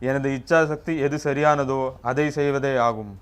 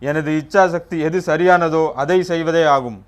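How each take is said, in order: First: It is said in a quieter, softer voice. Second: It is said in a normal full voice.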